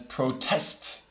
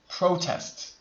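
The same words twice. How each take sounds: First: The stress is on the second syllable. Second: The stress is on the first syllable. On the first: It is used as a verb. "If it's a verb" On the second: It is used as a noun. "When it's a noun"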